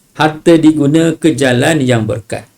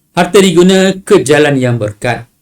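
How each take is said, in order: Both takes have the same delivery.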